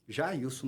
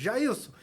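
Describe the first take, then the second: First: Said in the usual way. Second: Mild mock call from above. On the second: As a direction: lightly imitate calling down to someone. (chamando lá de cima, sem gritar de verdade) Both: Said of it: "eu gritei lá de cima".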